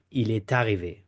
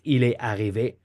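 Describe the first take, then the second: First: Il est arrivé linked with T, è-tarrivé; French liaison with T. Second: Il est arrivé, est and arrivé apart; French without liaison. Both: Shown as a demonstration. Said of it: "So I repeat".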